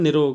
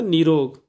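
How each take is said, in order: First: The first vowel is short. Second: The first vowel is long. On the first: The speaker calls it wrong. "बहुत से लोग कहते हैं निरोग, निरोग नहीं होता" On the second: The speaker calls it right. "नीरोग कहेंगे"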